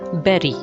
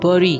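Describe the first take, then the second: First: It is said with a standard, non-Indian pronunciation. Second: It is said with an Indian English pronunciation. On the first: The speaker calls it right. "the correct pronunciation is bury" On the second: The speaker calls it wrong. "this is considered as Indian pronunciation of this word"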